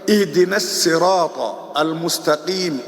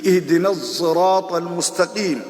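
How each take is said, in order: First: Sirat begins with a plain, light s sound. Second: Sirat begins with a blended s-z sound. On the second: "C'est une lettre mélangée"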